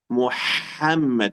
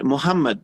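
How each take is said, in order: First: The h is deep and throaty. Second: The h is a light, plain breath. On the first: The speaker calls it right. "Hay sonido, sale de la, del estómago" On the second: The speaker calls it wrong. "Muhammad no existe"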